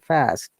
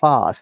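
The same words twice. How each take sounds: First: It is said in an American English accent. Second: It is said in a British English accent. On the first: "They say fast" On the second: "We call it fast"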